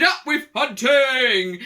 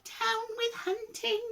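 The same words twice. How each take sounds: First: Chanted, loud, drawn-out rallying cry; chanted, boisterous, stretched-out cheer; chanted shout. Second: Very high, slow, wavering chant; high hoot. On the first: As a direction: shout it like a slow war chant. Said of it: "And they shouted". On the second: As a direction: hoot it slowly like a gentle dinosaur. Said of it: "For he hooted". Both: A narrator's reading.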